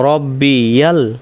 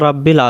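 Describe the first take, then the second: First: The word ends in 'bi-yal' with a ya syllable. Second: The word ends in 'bil' with no ya syllable. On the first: The speaker calls it right. "রব্বি ইয়া লাম জবর ইয়াল" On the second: The speaker calls it wrong. "রাব্বিল হবে না"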